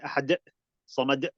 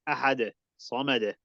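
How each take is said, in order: First: The final consonant is cut off with an abrupt stop. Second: The final consonant is released with a puff of air. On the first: The speaker calls it wrong. "You don't say ... like an abrupt stop" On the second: The speaker calls it right. "you let out the air like"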